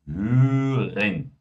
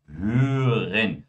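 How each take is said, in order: No difference in how they are said.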